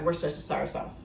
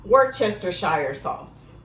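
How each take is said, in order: First: It is said quickly, run together. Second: It is said slowly, sounded out carefully. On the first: "I just say it real fast" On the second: "I'm going to try to sound it out for y'all today"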